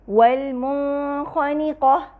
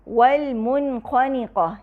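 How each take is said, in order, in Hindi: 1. n ध्वनि अगली ध्वनि में धुंधली होकर मिल जाती है। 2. n ध्वनि साफ़ और पूरी तरह बोली जाती है।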